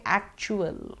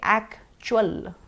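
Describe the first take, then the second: First: The vowel is the 'ua' diphthong. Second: The vowel is a different, non-'ua' vowel. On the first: The speaker calls it right. "Try to say actual" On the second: The speaker calls it wrong. "Try not to say actual"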